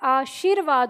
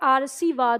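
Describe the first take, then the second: First: The r sound comes after the sh sound. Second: The r sound comes before the sh sound. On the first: The speaker calls it right. "इस व के आगे इसका उच्चारण करेंगे" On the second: The speaker calls it wrong. "यहाँ पे र लगाया तो ये आरसीवाद हो जाता है इसका उच्चारण, इसलिए गलत हो जाता है"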